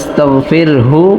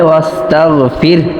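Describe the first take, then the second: First: The word ends with a final 'u' vowel. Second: The word ends without a final vowel. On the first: The reciter continues into the next phrase. "মিলিয়ে পড়ি তাহলে অবশ্যই আস্তাগফিরহু ইন্নাহু এইভাবে বলতে হবে" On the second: The reciter stops at this point. "এইখানে ওয়াকফ করলে ওয়াস্তাগফির এইভাবে বলতে হবে"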